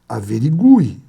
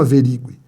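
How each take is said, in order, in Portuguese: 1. A tônica cai na sílaba 'gu'. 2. A tônica cai na sílaba 'ri'. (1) "quando eu fazia a tonicidade dela" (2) "e não averigue"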